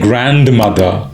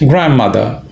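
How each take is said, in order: First: The d and n sounds are pronounced. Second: The d and n sounds are dropped. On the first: The speaker calls it wrong. "I didn't say grandmother" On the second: The speaker calls it right. "The D, in fact even the N is dropped"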